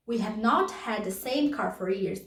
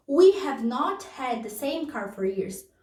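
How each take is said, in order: First: Said in the usual way. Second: Slower, careful reading; slow teacher model. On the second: Shown as a demonstration. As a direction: let the students hear every word. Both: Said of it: "repeats example sentence".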